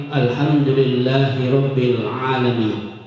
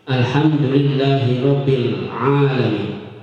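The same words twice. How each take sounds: No difference in how they are said.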